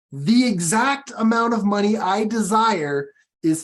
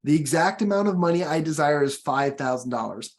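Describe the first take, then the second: First: "The exact amount of money" punched higher and louder; stress on the beginning. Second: Said in the usual way. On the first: Shown as a demonstration. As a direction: lean hard into "The exact amount", then let it settle. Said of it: "I emphasize the beginning". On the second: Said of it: "Now listen carefully".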